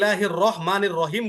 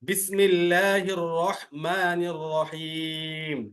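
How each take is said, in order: First: The Arabic sounds are pronounced carelessly and distorted. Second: The Arabic sounds are pronounced carefully and clearly. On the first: The speaker calls it wrong. "অশুদ্ধ হলো।" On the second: The speaker calls it right. "এই জন্য সুন্দর করে পড়তে হবে।"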